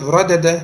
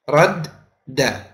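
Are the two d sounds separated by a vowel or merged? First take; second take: separated; merged. First: A vowel separates the two d sounds. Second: The two d sounds merge into one doubled d. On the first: The speaker calls it wrong. "instead of radada" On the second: The speaker calls it right. "now you're saying radda"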